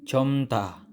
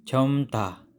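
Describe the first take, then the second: No difference in how they are said.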